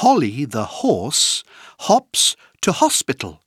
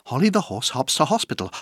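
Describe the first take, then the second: First: The phrase is said at a moderate pace. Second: The phrase is said at a very fast pace.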